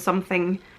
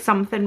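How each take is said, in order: First: The ending is pronounced 'ing' with the g. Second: The ending is pronounced 'in' without the g. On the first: "rather than something" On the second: "I would say like something"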